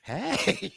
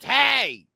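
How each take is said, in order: First: It is said quietly with low energy. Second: It is screamed loudly with high energy.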